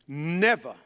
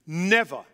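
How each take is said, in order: Both takes have the same delivery.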